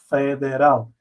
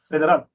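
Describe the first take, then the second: First: The word is said slowly, syllables drawn out. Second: The word is said quickly, syllables run together. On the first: This is how Portuguese speakers say it. "decimos más pausado" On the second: This is how Spanish speakers say it. "ustedes dicen federal"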